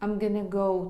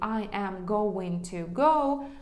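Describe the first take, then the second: First: The words are reduced and merged together. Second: Every word is said in full.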